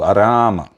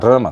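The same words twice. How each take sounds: First: The first vowel is held long. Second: The first vowel is not held long. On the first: The speaker calls it right. "Ela tem um A mais longo" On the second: The speaker calls it wrong. "tá errado"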